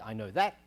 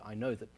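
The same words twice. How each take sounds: First: 'That' is said with a full vowel. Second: 'That' is said with a reduced schwa vowel. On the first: The speaker calls it right. "I could say" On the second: The speaker calls it wrong. "but I can't say"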